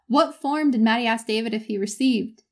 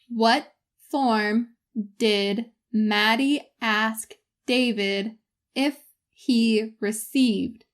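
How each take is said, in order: First: It is spoken at a normal conversational speed. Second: It is spoken at a much slower speed. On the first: "Once at my normal speed" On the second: "once at a much slower speed"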